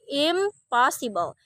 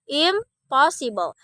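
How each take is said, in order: First: The prefix ends with an M sound. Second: The prefix ends with an M sound.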